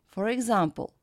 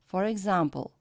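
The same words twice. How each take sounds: No difference in how they are said.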